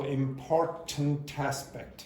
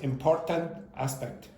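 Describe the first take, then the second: First: The final consonant links into the next vowel. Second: The two words are said separately without linking. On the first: The speaker calls it right. "so important aspect" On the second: The speaker calls it wrong. "instead of important aspect"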